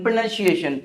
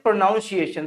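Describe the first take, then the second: First: प्रोनाउंसिएशन said pruh-NUN-see-ay-shun; model pronunciation. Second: प्रोनाउंसिएशन said pro-NOUN-see-ay-shun; common mispronunciation. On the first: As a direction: say "nun", not "noun", inside प्रोनाउंसिएशन. (प्रोनाउंसिएशन को "प्रनन्सिएशन" बोलें) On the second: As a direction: put a full "noun" inside प्रोनाउंसिएशन. (प्रोनाउंसिएशन में "नाउन" बोलें) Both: Shown as a demonstration. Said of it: "कुछ लोग इसे क्या बोलते हैं?".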